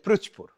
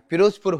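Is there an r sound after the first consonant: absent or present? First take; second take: present; absent. First: The first syllable has an r after p. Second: The first syllable has no r after p. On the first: The speaker calls it wrong. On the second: The speaker calls it right.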